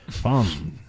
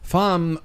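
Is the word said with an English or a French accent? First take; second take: French; English. First: It is said with a French pronunciation. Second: It is said with an English pronunciation. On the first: The speaker calls it right. "So I try to say it with a little French" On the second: The speaker calls it wrong. "Femmes just sounds dumb when you say it that way"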